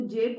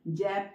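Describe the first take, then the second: First: जेब with a long closed "ay", "jeb"; correct ए vowel. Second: जैब with an open "ae", like "jab"; wrong ऐ vowel. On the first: Teacher showing how pupils say it, जेब with ए. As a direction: keep the pure ए in जेब. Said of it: "तो जेब बोलते हैं ना". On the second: Teacher showing what nobody says, जैब with open ऐ. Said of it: "जैब तो नहीं बोलते हैं". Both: Shown as a demonstration.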